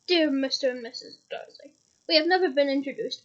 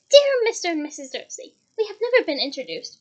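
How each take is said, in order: First: It is read in a plain reading voice. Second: It is read in a put-on Molly voice.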